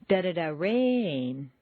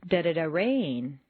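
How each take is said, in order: No difference in how they are said.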